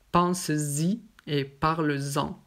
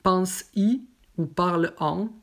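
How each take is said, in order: First: Slow "Pense-y et parle-en" with a clear z linking: "pan-zi", "parl-zan"; careful teacher model: "pense-zi et parle-zan"; with the Z liaison, slowly. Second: "pense-y ou parle-en" with no z, vowel straight onto vowel; "pense-y" and "parle-en" with no linking z sound; wrong, without liaison. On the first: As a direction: model "Pense-y" and "parle-en" slowly, each with a z sound before the vowel. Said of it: "on ne dit pas ... non". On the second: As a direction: demo the mistake: "pense-y" as "pans-i", "parle-en" as "parl-an". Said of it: "on ne dit pas".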